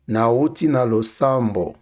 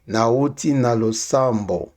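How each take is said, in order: Both takes have the same delivery.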